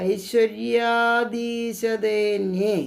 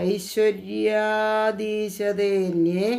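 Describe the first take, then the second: No difference in how they are said.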